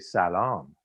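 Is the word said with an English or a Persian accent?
Persian. The word is said with a Persian accent. "you say salam. They're like, oh, you speak perfectly"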